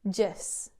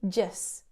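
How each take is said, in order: No difference in how they are said.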